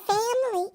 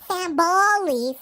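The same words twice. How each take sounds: First: The word is said short, in few syllables. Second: The word is drawn out into many syllables. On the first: The speaker calls it wrong. "I didn't say that right" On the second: The speaker calls it right. "that's how we Owenses say it. it's like five syllables"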